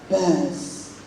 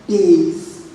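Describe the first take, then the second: First: The vowel is short, as in cat. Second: The vowel is long, as in face. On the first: It names a freshwater fish. "that's the one you pronounce as bars" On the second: It refers to the low part in music. "Bass is for the uh, uh, music part"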